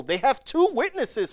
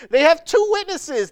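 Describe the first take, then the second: First: Said in the usual way. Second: "two witnesses" again, much higher and louder; emphatic repeat. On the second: Shown as a demonstration. Preacher to congregation, stressing two witnesses, emphatic. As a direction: hammer home "two".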